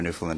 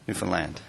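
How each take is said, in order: First: The last syllable does not rhyme with 'understand'. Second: The last syllable rhymes with 'understand'.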